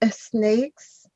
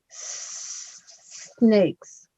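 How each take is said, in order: First: An extra vowel is added before the s. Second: The word starts directly with the s sound. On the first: The speaker calls it wrong. "you gave us an extra syllable. I heard you say" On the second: The speaker calls it right. "You're going to start with this sound"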